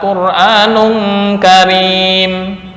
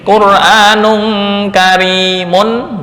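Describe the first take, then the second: First: The last word stops on a plain 'm' sound. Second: The last word ends with a full 'mun' ending. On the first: The tanwin is dropped when stopping. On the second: The word is read in continuous recitation.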